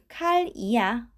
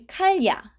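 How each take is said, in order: First: An 'i' vowel comes between 'kal' and 'ya'. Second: 'Kal' runs straight into 'ya' with no vowel. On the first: The speaker calls it right. "to make it a bit smoother" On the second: The speaker calls it wrong. "It's a bit complicated"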